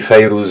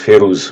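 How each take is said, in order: First: The first syllable sounds like 'fay'. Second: The first syllable sounds like 'feh'. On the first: This is how it is pronounced in Arabic. "Moi je dis Fayrouz ... en arabe, ça se prononce Fayrouz" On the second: Some other people say it this way. "il y en a qui disent [name]"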